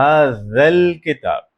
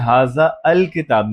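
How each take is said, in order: First: The 'a' of 'al' is dropped and linked. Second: The 'a' of 'al' is pronounced separately. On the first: The speaker calls it right. "मैं आ को साइलेंट कर रहा हूं। मैं कह रहा हूं हाज़ल किताब" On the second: The speaker calls it wrong. "अब मैं हाजा अल किताब नहीं बोल रहा"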